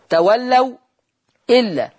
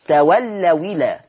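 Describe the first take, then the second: First: A glottal stop is heard before illa. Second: The glottal stop is dropped and the words run together.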